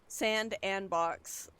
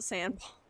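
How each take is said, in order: First: A separate, emphasized 'and' is said mid-name. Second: The name is said as one word, no 'and'. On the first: The speaker calls it wrong. "I was putting like emphasis on the and" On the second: The speaker calls it right. "they just pronounce it sandbox"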